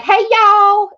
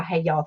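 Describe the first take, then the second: First: Loud, high, bright-energy "Hey, y'all." with y'all stretched up; signature greeting. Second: Said in the usual way. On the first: Shown as a demonstration. Greeting new subscribers with her catchphrase, loud and high-pitched. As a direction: belt out "Hey, y'all." like opening the show. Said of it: "you get to hear me go like". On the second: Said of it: "I have my "Hey, y'all" thing".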